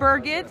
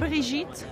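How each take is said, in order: First: The name is said with an American accent. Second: The name is said with a French accent. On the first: This is how people in New York say it. "in New York, which is basically the worst one" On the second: This is how people in Paris say it. "So here in Paris"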